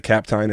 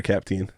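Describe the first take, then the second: First: "Captine" with a long i, like "tine"; surname ending in "-tine". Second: Put-on "Capteen" with a long ee, like "teen"; surname ending in "-teen". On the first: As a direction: say "Captine" to rhyme with "fine". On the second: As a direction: say "Capteen" to rhyme with "seen". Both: Shown as a demonstration. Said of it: "is it Captine or Capteen".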